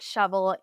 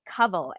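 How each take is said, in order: First: The name begins with an sh sound. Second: The name begins with a k sound. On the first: The speaker calls it wrong. "you've been mispronouncing my name. It's not shovel" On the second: The speaker calls it right. "it's covel"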